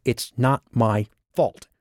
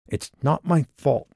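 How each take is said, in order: First: "not" pushed up, slow and sulky; stress on not. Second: "my" lifted high and falling; stress on my. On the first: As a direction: lean hard on "not", drawn out. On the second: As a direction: hit "my" with a falling tune. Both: Acted. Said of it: "like a toddler about to throw a fit".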